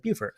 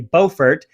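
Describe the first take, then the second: First: It uses the South Carolina pronunciation. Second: It uses the North Carolina pronunciation. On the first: "South Carolina says Beaufort" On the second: "the North Carolinians say Beaufort"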